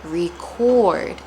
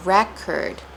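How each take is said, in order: First: First record said ree-CORD; verb pronunciation. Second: Second record said REK-erd; noun pronunciation. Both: Shown as a demonstration. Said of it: "but they sound differently".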